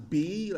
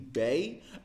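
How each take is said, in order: First: The letter sounds like 'bee'. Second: The letter sounds like 'bay'. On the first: This is the English letter name. "as we would say in English" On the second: This is the Dutch letter name. "in Dutch B isn't pronounced as B"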